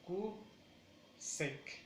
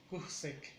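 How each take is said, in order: First: "Q sec" with a long gap after Q; koo, pause, sec; syllable by syllable. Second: "Q sec" joined, weight on koo; softer "Q sec" as one word; stress on first syllable. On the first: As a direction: pull "Q sec" into two beats. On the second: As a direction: run it together as KOO-sec. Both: Shown as a demonstration. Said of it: "es más importante la acentuación en la primera".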